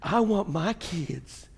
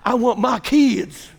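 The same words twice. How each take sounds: First: Said in the usual way. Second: Drawn-out Southern accent attempt; hammed-up Southern American accent. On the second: Shown as a demonstration. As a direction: put on a slow Southern drawl. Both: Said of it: "let me see if I can do a Southern".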